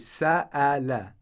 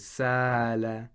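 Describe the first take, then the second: First: The middle glottal stop is strong. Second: The middle glottal stop is weak. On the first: The speaker calls it right. "the hamza is pronounced it's pronounced strongly" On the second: The speaker calls it wrong. "It shouldn't be pronounced weakly like this"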